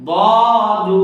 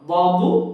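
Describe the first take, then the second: First: The final vowel is drawn out long. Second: The final vowel is kept short. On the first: The speaker calls it wrong. "ভুল করে বলি বদু, এরকম টান দিই" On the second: The speaker calls it right. "এখানে কিন্তু কোনো টান দেওয়া যাবে না"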